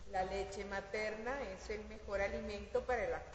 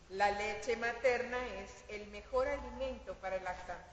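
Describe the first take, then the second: First: It is read plainly, without extra emphasis. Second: It is read with strong, heightened emphasis.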